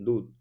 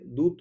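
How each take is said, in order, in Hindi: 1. स्वर लंबा है और उस पर ज़ोर है। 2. स्वर छोटा है और उस पर ज़ोर नहीं है। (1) "तो दूध ऐसे होता है" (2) "ऐसे दूध थोड़े कह रहे हैं"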